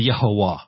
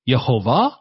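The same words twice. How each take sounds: First: The middle consonant is a w sound. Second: The middle consonant is a v sound. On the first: "But some will say no, it's wa" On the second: "I prefer to say the way it's the scriptures are read with va sound"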